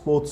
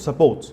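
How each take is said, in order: First: The first vowel drops, sounding like 'sports'. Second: Two clear syllables, sounding like 'support'. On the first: It sounds like talk about games. The speaker calls it wrong. "he kept saying sports, sports, sports" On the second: It means help. The speaker calls it right. "The actual support, the help, support, that one"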